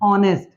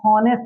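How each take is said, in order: First: The word begins directly with a vowel sound. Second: The word begins with an audible h sound. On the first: The speaker calls it right. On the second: The speaker calls it wrong. "हॉनेस्ट हम नहीं बोल रहे हैं"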